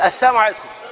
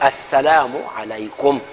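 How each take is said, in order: First: The first word is said like 'assaamu', without 'la'. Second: The first word is said fully as 'assalaamu'. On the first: It wishes the listener death. The speaker calls it wrong. "saamu kitegeeza lumbe kakati akuga salaamu aleikum wakafa olumbe" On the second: It wishes the listener peace. The speaker calls it right. "gamba nti"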